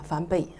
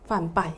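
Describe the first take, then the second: First: The second syllable is pronounced 'bei'. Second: The second syllable is pronounced 'bai'. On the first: This is the reading handed down by elder monks. "我哋跟住嚇啲老法師佢哋一路咁樣傳落嚟嗰個讀音發音咧係叫梵悲" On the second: This is the reading given in dictionaries. "你去查詞典咧，啊個讀音應該係梵拜"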